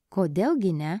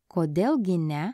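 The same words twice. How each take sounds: The two takes are said the same way.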